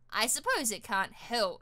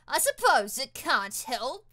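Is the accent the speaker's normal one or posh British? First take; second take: normal; posh British. First: It is said in the speaker's everyday accent. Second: It is said in a posh British accent.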